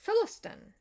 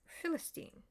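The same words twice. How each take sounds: First: Philistin said "FIL-ə-stən", high and loud; historical name. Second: Philistine said "FIL-ə-steen", softly; alternate pronunciation. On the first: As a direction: Philistin with a short, unstressed last syllable. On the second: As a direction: Philistine ending in a long "steen". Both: Shown as a demonstration. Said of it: "or they called it".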